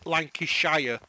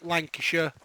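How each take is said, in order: First: The ending is a full 'shire' sound. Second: The ending is a short reduced 'sher' sound. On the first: "it is pronounced when you spell it" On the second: "we don't say the Shire. It's a sh sound"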